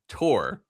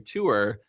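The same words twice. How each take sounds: First: The word is short, with one syllable. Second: The word is longer, with two syllables. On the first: "the very short, very quick, one syllable word tour" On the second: "some people other people in my life say tour"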